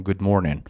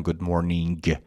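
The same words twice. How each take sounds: First: "گود مورنینگ" said as "good mornin", final g dropped. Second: "گود مورنینگ" with the last g fully sounded; hard final G. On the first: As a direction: end "گود مورنینگ" on a plain n. («گود مورنینگ» با حذف گِ آخر، مثل «مورنِن») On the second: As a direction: pronounce a firm g at the end of "گود مورنینگ". («گود مورنینگ» با گِ آخر محکم و کامل) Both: Shown as a demonstration.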